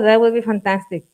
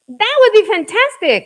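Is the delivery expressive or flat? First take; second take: flat; expressive. First: It is said with flat, unexpressive intonation. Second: It is said with lively, expressive intonation. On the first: The speaker calls it wrong. "Not like" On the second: The speaker calls it right. "it was like"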